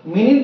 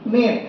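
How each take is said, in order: First: The first vowel sounds like 'ih', ending 'nit'. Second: The same.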